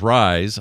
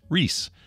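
First: The vowel is a long 'eye' sound. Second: The vowel is a long 'ee' sound. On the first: The speaker calls it wrong. "every time y'all pronounce that as Rise" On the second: The speaker calls it right. "is pronounced Reese"

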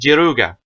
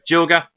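First: The name is said with Japanese pronunciation. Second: The name is said with English pronunciation. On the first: "the Japanese" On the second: "This is just for the English names"

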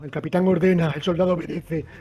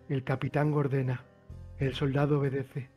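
First: The phrase is spoken at a louder volume. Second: The phrase is spoken at a softer volume.

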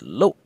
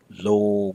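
First: The vowel is short and cut off abruptly. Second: The vowel is long and lingering. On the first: The speaker calls it right. "a short, abrupt N in your vowel" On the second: The speaker calls it wrong. "It should not be lo with a long, lingering vowel"

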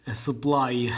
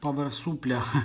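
First: The word ends with a 'lai' sound. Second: The word ends with a 'lya' sound. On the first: The speaker calls it right. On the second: The speaker calls it wrong.

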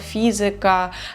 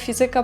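First: The stress falls before the second-to-last syllable. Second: The stress is on the second-to-last syllable. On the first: The speaker calls it right. "правильно буде" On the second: The speaker calls it wrong. "ти настільки звикаєш до того ж"

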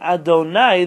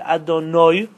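First: The word ends with the sound 'nai'. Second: The word ends with the sound 'noi'. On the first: It refers to a human being. The speaker calls it wrong. "nai is about man" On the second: It refers only to God. The speaker calls it right. "Noi is only about Hashem"

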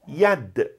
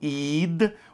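First: The word starts with a 'y' sound. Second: The word starts with a vowel sound. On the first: This is how other regions say it. "outros falam yad" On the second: This is how some regions say it. "alguns falam id"

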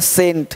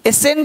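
First: The word begins with a plain s sound. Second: The word begins with an extra 'ess' syllable. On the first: The speaker calls it right. "एस चुप हो गया, बोलेंगे सेंट" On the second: The speaker calls it wrong. "एसेंट नहीं बोलते है ना"

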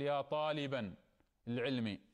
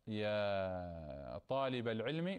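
First: The first noun ends with an -an sound. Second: The first noun ends without an -an sound. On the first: The speaker calls it wrong. "لا نقول: ... خطأ هذا التركيب" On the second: The speaker calls it right. "لا ننون الكلمة الأولى بالنصب تنوينا"

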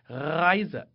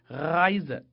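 No difference in how they are said.

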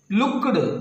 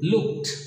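First: The ending is not a t sound. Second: The ending is a t sound. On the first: The speaker calls it wrong. "no, it's a blender, it's an error" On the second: The speaker calls it right. "So, looked"

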